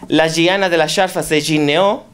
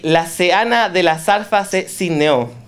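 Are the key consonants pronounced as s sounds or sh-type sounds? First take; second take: sh sounds; s sounds. First: The key consonants are sh-type or j-type sounds. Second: The key consonants are plain s sounds. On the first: This is the standard form of the dialect. "Standard jaquetilla, they will say" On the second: This is the speaker's own community's form. "we change all the G and J to S"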